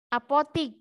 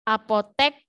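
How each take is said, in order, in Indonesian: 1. Suku kata terakhir memiliki vokal 'i'. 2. Suku kata terakhir memiliki vokal 'e'.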